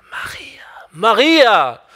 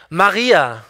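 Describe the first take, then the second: First: "Maria" barely voiced, just air; whispered. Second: Said in the usual way. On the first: Shown as a demonstration. Preacher tries the name as Jesus might, whispering. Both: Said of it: "wie ich das folgende Wort ausspreche".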